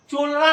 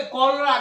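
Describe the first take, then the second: First: चोलरा with "ch" as in "chop"; wrong pronunciation. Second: कॉलरा with a hard "k" at the start; correct pronunciation. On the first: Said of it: "चोलरा नहीं पढ़ना". (चोलरा, "च" से शुरू गलत उच्चारण) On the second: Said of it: "क्या पढ़ेंगे?". (कॉलरा, "क" से शुरू सही उच्चारण) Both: Shown as a demonstration.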